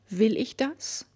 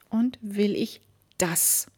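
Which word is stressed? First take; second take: Will; das. First: The stress is on "Will". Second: The stress is on "das".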